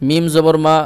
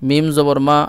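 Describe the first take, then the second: No difference in how they are said.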